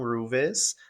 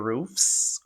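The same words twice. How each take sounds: First: The word ends with a v sound. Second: The word ends with an f sound. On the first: The speaker calls it wrong. "e não roofs" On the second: The speaker calls it right. "com um F S no final"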